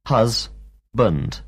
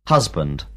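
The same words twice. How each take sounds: First: Husband. said slowly in two beats; syllables spelled out. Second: Said in the usual way. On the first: Shown as a demonstration. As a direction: stretch husband. into hus-band. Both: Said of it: "and two syllables in the word".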